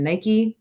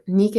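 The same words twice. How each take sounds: First: Nike is said with the American pronunciation. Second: Nike is said with a non-American pronunciation.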